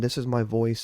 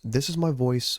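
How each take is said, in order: First: The voice has no equalizer processing. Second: The voice is processed through an equalizer. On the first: The speaker calls it wrong. "without the equalizer turned on" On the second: The speaker calls it right. "with the equalizer turned on"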